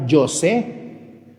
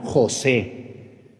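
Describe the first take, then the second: First: "José" drawn out with a Y for the J; wrong Y sound. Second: "José" drawn out with a throaty J; correct Spanish J. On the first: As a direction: say "José" slowly as yo-SEH. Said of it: "no me llamo José". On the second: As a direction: say "José" very slowly as ho-SEH. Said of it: "me llamo José". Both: Shown as a demonstration.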